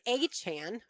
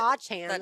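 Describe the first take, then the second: First: It begins with an 'ay' then a 'ch' sound. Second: It begins with an 'ah' then a 'ch' sound.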